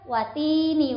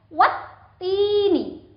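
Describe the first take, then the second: First: The t sound is single and light. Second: The t sound is doubled and pressed. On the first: The speaker calls it wrong. "bukan watini wazaitun, itu salah ya" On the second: The speaker calls it right. "harus ditekan"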